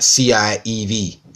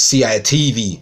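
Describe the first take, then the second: First: The T sound is dropped, Cockney style. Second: The T sound is clearly pronounced.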